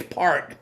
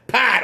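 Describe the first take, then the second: First: "part" with a clearly sounded R, pitched lower; pronounced R. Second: "Pot" as a Boston R-less part; Boston accent. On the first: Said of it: "Part, not pot". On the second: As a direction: say "Pot" with an open vowel and no R. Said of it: "make fun of my accent". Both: Shown as a demonstration.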